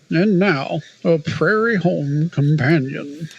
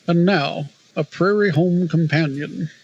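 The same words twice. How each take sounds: First: It is said in an exaggerated NPR announcer voice. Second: It is said in a mild NPR announcer voice.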